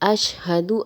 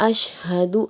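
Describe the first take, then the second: Both takes have the same delivery.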